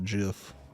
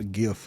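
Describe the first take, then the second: First: It begins with a soft J sound. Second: It begins with a hard G sound. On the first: The speaker calls it wrong. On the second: The speaker calls it right.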